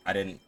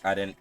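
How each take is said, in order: Both takes have the same delivery.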